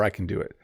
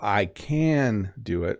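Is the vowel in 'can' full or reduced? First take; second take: reduced; full. First: The vowel in 'can' is reduced to schwa. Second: The vowel in 'can' is full and clear.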